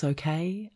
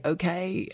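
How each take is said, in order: First: "Okay?" asked with a rising question tune; "Okay?" lifted at the end as a check-in. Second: "Okay." said higher as a settled answer; "Okay." spoken as a firm reply, no question lift; answering tune. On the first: He checks on her. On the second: She answers him. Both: A narrator's reading.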